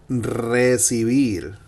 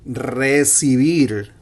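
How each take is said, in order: The two takes are said the same way.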